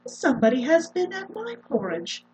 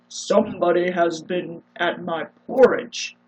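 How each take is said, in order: First: A middle-sized, medium-pitched voice is used. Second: A big, rough, gruff voice is used.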